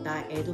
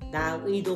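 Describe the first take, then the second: First: The last syllable has the plain vowel 'e'. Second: The last syllable has the diphthong 'ui'. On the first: "나애도 맞습니다" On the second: "나의도 맞고"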